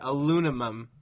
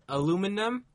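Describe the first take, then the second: First: The n comes before the m. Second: The m comes before the n. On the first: The speaker calls it wrong. "I'm trying to say it the wrong way. They'll switch the M and the N" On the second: The speaker calls it right. "Aluminum is the right way to say it"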